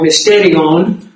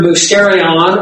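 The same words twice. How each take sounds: First: It is said the way modern Greeks say it. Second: It is said the older, non-modern Greek way.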